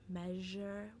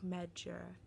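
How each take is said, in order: First: The middle consonant is a soft zh sound. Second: The middle consonant is a hard j sound. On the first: The speaker calls it right. "that would be like a soft J, or this Z sound" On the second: The speaker calls it wrong. "we don't say like"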